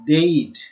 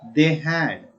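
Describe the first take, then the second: First: The words are merged into one short syllable. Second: Both words are said fully and separately. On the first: "contrasted form, and its pronunciation" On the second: "Full form"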